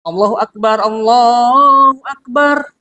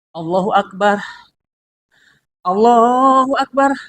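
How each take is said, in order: First: Both phrases are said in one breath. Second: A breath is taken between the two phrases. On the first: The speaker calls it right. "Dalam satu napas" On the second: The speaker calls it wrong. "Tidak bisa kita mengambil dua napas"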